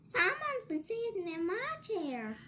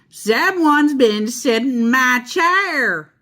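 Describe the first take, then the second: First: It is a mild, middle-sized voice. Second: It is a big, grouchy, growling voice.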